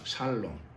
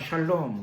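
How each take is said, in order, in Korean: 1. 이 단어는 평범한 's' 소리로 시작해요. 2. 이 단어는 'sh' 소리로 시작해요. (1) "살롬 이렇게 되어 있습니다" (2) "비교적 이게 정확한 발음입니다"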